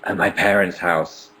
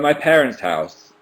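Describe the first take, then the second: First: It is said in a deeper, lower voice. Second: It is said in a normal speaking voice.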